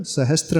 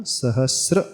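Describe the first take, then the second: First: सहस्त्र with an intrusive t; wrong sahastra. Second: सहस्र with s running straight into r; correct sahasra. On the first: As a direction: say सहस्त्र as sa-has-tra. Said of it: "सहस्त्र नहीं बोलना". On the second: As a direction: say सहस्र as sa-has-sra, no t. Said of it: "ऐसा". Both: Shown as a demonstration.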